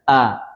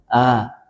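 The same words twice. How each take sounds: First: The sound is firm, with the breath held back. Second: The sound is light, with the breath flowing. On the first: The speaker calls it right. "Dia harusnya mestinya syiddah" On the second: The speaker calls it wrong. "bukan a, a, a. Itu menjadi rakhawah"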